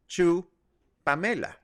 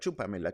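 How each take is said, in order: First: The two words are said slowly and separately. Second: The two words are run together quickly. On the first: "if you say her name starting with the last name" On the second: "If you say that fast enough"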